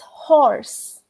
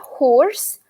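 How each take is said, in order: First: The vowel is said with the jaw wide open. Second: The vowel is said with a less open jaw. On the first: It names the animal. The speaker calls it right. "your jaw has to completely open up" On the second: It sounds like the word for a rough voice. The speaker calls it wrong. "It's not horse"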